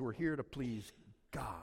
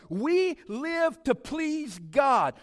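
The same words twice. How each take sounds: First: Breathy whisper, softer. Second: Loud, high and slow, every word weighted; preached proclamation. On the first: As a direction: drop to a hush to let it sink in. Whispered echo of preached line. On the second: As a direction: proclaim it to the congregation. Preached climax before whispered echo. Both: Acted.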